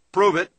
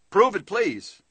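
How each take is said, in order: First: Like a doubting prospect daring you; loud challenge. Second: Higher, softened demand with please; a skeptic asking nicely for proof; polite challenge. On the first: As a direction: bark out a blunt demand. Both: Shown as a demonstration. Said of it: "hear the statement in your mind".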